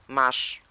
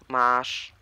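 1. To krótkie, otwarte a. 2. To przeciągnięte, długie a. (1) "A kreskowanym. ... przeczytałem U kreskowane jak U otwarte" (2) "No i z długim A"

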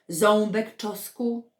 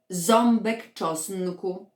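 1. Dźwięk n w czosnku jest pominięty. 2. Dźwięk n w czosnku jest wymawiany. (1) "a nie" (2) "prawidłowo wypowiedzieć"

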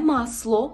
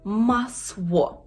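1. Приголосний — твердий звук l. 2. Приголосний — звук w. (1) "Не масло, це не є л" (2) "Це є в"

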